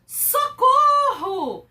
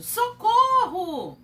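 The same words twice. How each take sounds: First: High, loud, slow scream; panicked cry for help. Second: Higher, louder, slow shout; cry for help. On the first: Teacher acting out fear for the class, high and loud. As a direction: cry out in terror. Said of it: "ou medo, desespero". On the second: Teacher repeating the scared exclamation, higher and louder. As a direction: call out in fright. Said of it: "Olha como muda a sinalização". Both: Shown as a demonstration.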